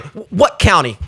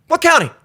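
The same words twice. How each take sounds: First: Said in the usual way. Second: Higher what county. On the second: Retold or imitated.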